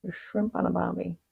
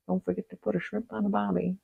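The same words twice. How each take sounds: First: Soft, strained Aussie impression; failed Australian accent. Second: Softer, strained Aussie impression; failed Australian accent. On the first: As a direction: give up halfway through an Aussie accent. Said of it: "I can't do it". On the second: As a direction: force an Australian accent and miss. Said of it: "No, that's very, never mind". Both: Shown as a demonstration.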